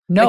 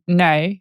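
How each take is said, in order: First: It is said in a North American accent. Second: It is said in an Australian accent.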